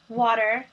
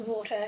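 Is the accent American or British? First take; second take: American; British. First: It is said in an American accent. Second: It is said in a British accent.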